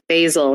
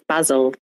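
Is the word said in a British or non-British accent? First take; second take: non-British; British. First: It is said in a non-British accent. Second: It is said in a British accent.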